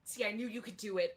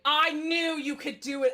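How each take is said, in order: First: Said in the usual way. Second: Loud, higher burst of encouragement; excited praise. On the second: Acted. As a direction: cheer the actor on with full volume. Director repeats praise, louder.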